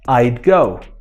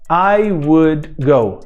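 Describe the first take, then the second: First: The word would is reduced to a d sound. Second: The word would is said in full.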